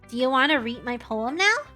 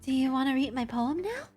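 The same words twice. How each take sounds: First: It is read in the speaker's ordinary voice. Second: It is read in a put-on character voice. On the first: The speaker calls it wrong. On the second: The speaker calls it right.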